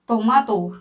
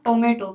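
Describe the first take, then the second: First: The middle vowel sounds like 'ah'. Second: The middle vowel sounds like 'ay'. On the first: "टोमेटो ना पढ़ के टोमाटो" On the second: "इसको क्या पढ़ते हैं अपन?"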